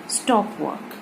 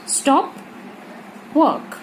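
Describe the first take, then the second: First: stop work run together as one phrase, softer, falling; no pause. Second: stop alone, long pause, then a falling work; pause after stop. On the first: Teacher giving the English sentence without comma, stop work unbroken. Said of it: "अगर हम इसमें comma नहीं". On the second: Teacher showing a comma in the middle, long pause after stop. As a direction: split stop and work into two separate higher-pitched commands. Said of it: "बीच में comma लगा देते हैं". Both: Shown as a demonstration.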